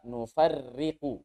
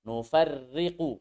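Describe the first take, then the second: The two takes are said the same way.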